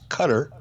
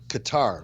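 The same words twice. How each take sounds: First: It is pronounced not rhyming with guitar. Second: It is pronounced to rhyme with guitar. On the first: The speaker calls it right. "the correct pron- pronunciation of the country is Qatar" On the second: The speaker calls it wrong. "like guitar, kind of like the instrument"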